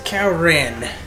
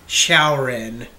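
First: The name begins with a K sound. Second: The name begins with an SH sound. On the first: The speaker calls it wrong. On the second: The speaker calls it right.

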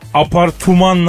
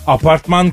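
First: It is pronounced in a French-sounding way. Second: It is pronounced in a plain Turkish way. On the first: The word sounds refined. The speaker calls it right. "apartman nazik mi?" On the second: The word sounds crude. The speaker calls it wrong. "Apartman kaba"

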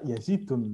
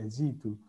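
First: The name ends with an added n sound. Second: The name ends on a vowel without n. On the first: The speaker calls it wrong. "tidak dibaca Yazidun" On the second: The speaker calls it right. "tapi Yazidu"

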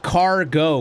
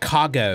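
First: The R sound after the first vowel is pronounced. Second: The R sound after the first vowel is dropped. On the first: The speaker calls it right. "it's cargo with an R" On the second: The speaker calls it wrong. "not cargo"

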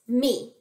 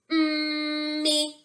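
First: The word is said quickly, all as one unit. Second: The word is stretched out slowly, sound by sound. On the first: The blended sounds are read as a whole word. "Say it fast" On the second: The sounds are being blended one at a time. "Watch me. Get ready"

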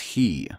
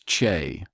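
First: The word begins with a plain h sound. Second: The word begins with a throaty ch sound. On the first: This is the speaker's own pronunciation. "I pronounce it as he"

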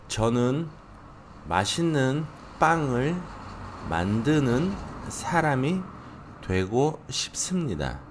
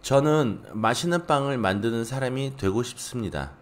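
First: The sentence is read at a slower pace. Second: The sentence is read at a faster pace.

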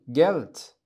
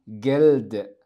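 First: The word ends with a voiceless t sound. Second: The word ends with a voiced d sound. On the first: The speaker calls it right. "بل جلت" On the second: The speaker calls it wrong. "فهم لا يقولون جلد"

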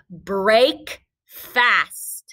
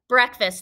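First: The first part sounds like 'brake', with a long vowel. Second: The first part sounds like 'breck', with a short vowel. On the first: The speaker calls it wrong. "We don't say it like that" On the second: The speaker calls it right. "This is the word breakfast"

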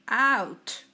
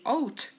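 First: The vowel is pronounced like 'ow'. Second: The vowel is not pronounced like 'ow'. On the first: The speaker calls it right. "you say out" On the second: The speaker calls it wrong. "You don't say out"

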